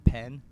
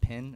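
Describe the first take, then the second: First: The vowel sounds like 'eh', as in bed. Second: The vowel sounds like 'ih', as in pin. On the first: This is the usual pronunciation. "instead of a pen" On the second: This is the speaker's own Southern pronunciation. "I also say like pin, like you write with a pin"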